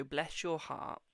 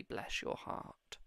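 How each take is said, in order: First: Slow, drawn-out Southern "Bless your heart"; southern accent. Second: Slow, breathy Southern "Bless your heart"; whispered southern accent. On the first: Imitating a relative's Southern "Bless your heart". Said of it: "but in the most, like, southern way". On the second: Psychic imitates a relative's gentle Southern "Bless your heart". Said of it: "they said it in the most southern way you could say". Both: Retold or imitated.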